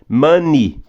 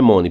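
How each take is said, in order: First: The first vowel sounds like 'ah'. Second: The first vowel sounds like 'oh'. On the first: The speaker calls it right. "é ma. Esse O vai ter som de A. Money, come o E" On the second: The speaker calls it wrong. "Não é money. Primeiro que não é mon"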